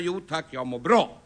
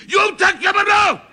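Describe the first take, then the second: First: Slow, lower, courteous reply; polite demonstration. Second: Polite phrase yelled high and loud; furious shouted courtesy. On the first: Shown as a demonstration. Man teaching a child phone manners, politely and slowly. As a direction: model a polite phone answer, unhurried. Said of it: "ska jag vara lika artig tillbaka". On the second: Acted. Man drilling phone manners into a child, shouting angrily. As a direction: scream the courteous reply in exasperation. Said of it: "jag lärde dig att du ska fråga".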